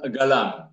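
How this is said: The word begins with a hard g sound. "ada juga yang mengatakan galam"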